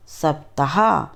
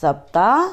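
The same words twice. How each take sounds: First: सप्ताह in full, "saptaha"; correct pronunciation. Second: सप्ताह clipped to "apta"; wrong pronunciation. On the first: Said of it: "शुद्ध उच्चारण अलग तरीके से होता है". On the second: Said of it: "अशुद्ध उच्चारण अलग तरीके से होता है". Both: Shown as a demonstration.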